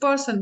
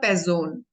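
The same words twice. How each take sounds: First: It is said with an English s sound. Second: It is said with a z sound at the start. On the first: "in English also is a person" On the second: "in German sound is different. ... S is pronounced like za"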